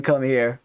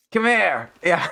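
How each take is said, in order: First: Said in the usual way. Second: Put-on drunk American yell. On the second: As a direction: bark it like a drunk yelling. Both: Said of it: "sounds like a drunk American yelling".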